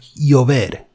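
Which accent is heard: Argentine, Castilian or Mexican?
Castilian. The ll is said softer, Castilian style.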